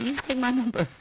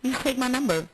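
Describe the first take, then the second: First: Mock flirty. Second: Mock flirty repeat. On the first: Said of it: "I said". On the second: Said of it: "I did".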